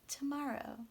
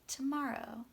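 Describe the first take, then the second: First: The first syllable has a reduced schwa vowel. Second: The same.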